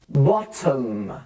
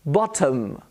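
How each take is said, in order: First: "Bottom" stretched as "bott-uhmmm"; drawn-out, lower model of "Bottom"; exaggerated schwa. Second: "Bottom" as "BOT-uhm"; careful "Bottom" with weak second vowel; schwa demo. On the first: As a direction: linger on the "uhm" of "Bottom". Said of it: "I'm trying to exaggerate". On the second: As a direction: neutral "uh" before the m of "Bottom". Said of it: "The O becomes a schwa". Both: Shown as a demonstration.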